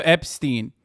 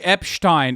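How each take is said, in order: First: Said in the usual way. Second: "Epstein" said as EP-shtine; mispronounced name. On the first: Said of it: "instead of Epstein". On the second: Retold or imitated. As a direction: say "Epstein" with a sh and ending like "tine". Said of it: "because he called, he said Jeffrey Epstein".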